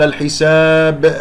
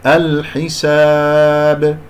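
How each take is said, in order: First: الحساب with a hamza-like catch after the bouncing B; wrong qalqala. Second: الحساب chanted slowly, final B bounced cleanly; clean qalqala. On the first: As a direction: add a glottal tail to the final B of الحساب. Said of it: "كأنه همزة". («الحساب» بقلقلة مشوبة بهمزة) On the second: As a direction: release the B of الحساب with no added vowel or hamza. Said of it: "لا من غير أي شائبة". («الحساب» بقلقلة نقية بلا شائبة) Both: Shown as a demonstration.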